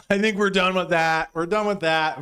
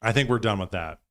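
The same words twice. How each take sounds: First: Laughing. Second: Said in the usual way. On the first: Real, not acted. Repeats line while laughing.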